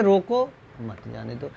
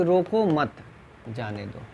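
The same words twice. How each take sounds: First: "रोको" set apart, pause, then "मत जाने दो" run together; pause after रोको. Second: "रोको मत" together, pause, then "जाने दो" lower and softer; pause after मत. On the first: Teacher contrasts two punctuations for students, pause after रोको. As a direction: break right after रोको, keep मत with जाने दो. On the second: Teacher contrasts two punctuations for students, pause after मत. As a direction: break after मत, letting जाने दो drop. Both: Shown as a demonstration. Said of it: "दोनों का अर्थ अलग-अलग".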